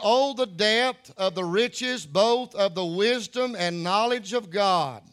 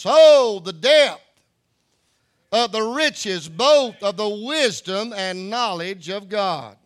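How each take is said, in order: First: It is read in a plain, calm way. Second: It is read with loud, exclamatory excitement.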